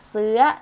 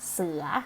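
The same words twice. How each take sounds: First: The syllable has a high tone. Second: The syllable has a rising tone. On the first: "รูปตีนั่นเอง" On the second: "อันนี้ก็คือเป็นเสียงจัตวานั่นเอง"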